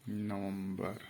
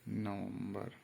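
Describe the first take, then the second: No difference in how they are said.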